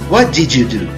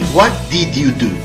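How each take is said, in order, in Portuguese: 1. 'Did' e 'you' se fundem em um só som. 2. 'Did' e 'you' são ditos como palavras separadas. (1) "na maneira emendada na qual se combina o did e o you" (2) "não se ouve exatamente a frase"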